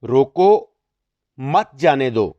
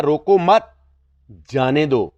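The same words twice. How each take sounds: First: روکو set apart, then مت جانے دو together; pause after روکو. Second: روکو مت together, then جانے دو; raised روکو مت, pause, falling جانے دو; pause after مت. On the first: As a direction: break right after روکو, before مت. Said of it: "علامت روکو کے بعد لگاتے ہیں". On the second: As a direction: break right after مت, before جانے دو. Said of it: "روکو مت کے آگے لگاتے ہیں". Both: Shown as a demonstration.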